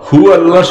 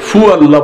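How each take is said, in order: First: The first word begins with an h sound. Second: The first word begins with an f sound. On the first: The speaker calls it right. "হু আল্লাহ শব্দ না বলে" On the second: The speaker calls it wrong. "ফু আল্লাহ বলে"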